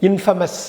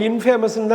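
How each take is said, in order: First: இன்ஃபேமஸ் as 'IN-fuh-mus'; shortened pronunciation. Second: இன்ஃபேமஸ்ன்னு with a long 'fay'; wrong 'in-FAY-mus'. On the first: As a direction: shrink the middle of இன்ஃபேமஸ் to a short 'fa'. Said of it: "குறுக்கி சொல்லணும்". (இன்ஃபேமஸ் - 'இன்ஃபமஸ்' என்று குறுக்கி) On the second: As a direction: say 'famous' inside இன்ஃபேமஸ்ன்னு. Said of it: "கிடையாது". (இன்ஃபேமஸ்ன்னு - 'ஃபே' என நீட்டிய தவறான ஒலி) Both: Shown as a demonstration.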